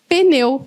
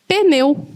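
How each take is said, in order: First: A short vowel separates the p and n. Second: The same.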